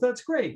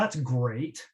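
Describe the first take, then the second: First: It is said in a genuinely happy, pleased tone. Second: It is said in an unhappy, sarcastic tone. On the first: The speaker is truly pleased. "She's so happy" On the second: The speaker is actually displeased. "And she's unhappy"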